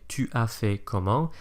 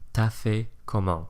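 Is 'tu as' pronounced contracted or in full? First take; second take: full; contracted. First: The words tu and as are both fully pronounced. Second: Tu and as are squished into one syllable. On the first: "he doesn't say tu as fait comment" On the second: "abbreviate tu as to ta"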